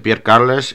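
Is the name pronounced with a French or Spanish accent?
Spanish. The name is pronounced in a Spanish way. The speaker calls it wrong.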